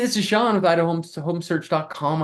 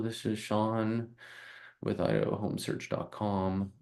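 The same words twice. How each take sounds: First: The voice is lively and warm. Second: The voice is flat and monotone. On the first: The speaker calls it right. "it's just being personable" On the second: The speaker calls it wrong. "Or you sound monotone?"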